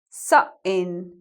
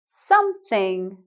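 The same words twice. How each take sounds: First: The middle sound is a catch in the throat. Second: The middle sound is a clear th. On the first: "we're putting a glottal stop in the middle of the word" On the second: "I'll say them in proper English"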